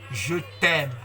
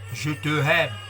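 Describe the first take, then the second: First: The 'te' vowel is dropped and joined to 'aime'. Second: The 'te' vowel is fully pronounced before 'aime'. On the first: The speaker calls it right. "grâce à la liaison pour dire ceci" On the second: The speaker calls it wrong. "sans liaison, c'est vilain"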